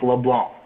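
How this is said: The name is said with French sounds. This is how the hosts say their own name.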